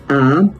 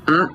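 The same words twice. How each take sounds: First: The vowel is drawn out for longer. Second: The vowel is held only briefly. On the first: "suenan más largas" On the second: "se lee breve y tienen solo un tono"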